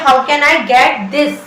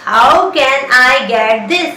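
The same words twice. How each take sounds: First: Slow, deliberate; slow teaching demo. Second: Very slow, stretched; slower teaching demo. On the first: Teacher modelling the question slowly. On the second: Teacher drilling the question very slowly. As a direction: repeat it slower still. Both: Shown as a demonstration. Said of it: "English में बोलिए".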